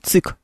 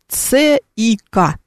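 First: The letters are read together as one word. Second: Each letter is said by its name. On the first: The speaker calls it right. "мы говорим ЦИК" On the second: The speaker calls it wrong. "Мы не говорим ЦИК"

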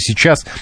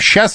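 First: The word is said with every syllable. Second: The word is shortened to a clipped form. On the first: "вместо «сейчас»" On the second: "мы говорим «сейчас»"

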